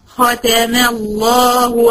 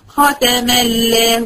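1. اللام في لفظ الجلالة مفخمة وثقيلة. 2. اللام في لفظ الجلالة مرققة وخفيفة. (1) "يبقى لام لفظ الجلالة هنا ماله؟ مفخم" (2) "ما ينفعش اقول ختم الله"

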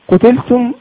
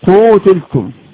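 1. الحركة الأولى قصيرة. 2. الحركة الأولى طويلة.

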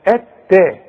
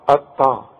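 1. صوت التاء خفيف ومرقق. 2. صوت التاء ثقيل ومفخم. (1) "لا اتا، ... ورقق لي التاء" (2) "بذمتك تنفع اطا دي؟"

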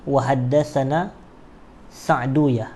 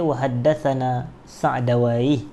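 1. Nama itu berakhir dengan bunyi 'uyah'. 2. Nama itu berakhir dengan bunyi 'awaih'. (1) "boleh juga dibaca begitu" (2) "boleh juga dibaca wa haddatsana Sa'dawai"

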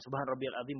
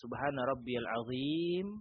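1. Frasa itu dibaca cepat dan terburu-buru. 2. Frasa itu dibaca pelan dan teratur. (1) "bukan seperti itu" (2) "dengan bacaan yang tartil"

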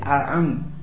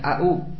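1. Suku kata kedua dimulai dengan bunyi tenggorokan yang dalam. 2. Suku kata kedua dimulai dengan hentian glotal yang ringan. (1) "Tapi a'un" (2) "jangan semuanya au"

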